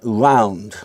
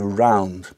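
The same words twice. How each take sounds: First: The R has a Yiddish-influenced, non-standard quality. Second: The R is an ordinary English R sound. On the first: "There are many people in England who say something like round" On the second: "I would say round"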